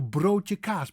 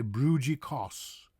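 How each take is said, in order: First: Broodje kaas with a rolled r, oh vowel and open aa; slow, native Dutch broodje kaas; Dutch pronunciation. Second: Broodje kaas as "broo-jee koss"; anglicized broodje kaas, oo vowel and soft j; American mispronunciation. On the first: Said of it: "but most Americans will say". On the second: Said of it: "most Americans will say". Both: Shown as a demonstration.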